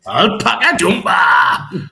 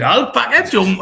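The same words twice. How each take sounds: First: Put-on Geordie accent. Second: Said in the usual way. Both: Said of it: "Sounds better in a Geordie accent".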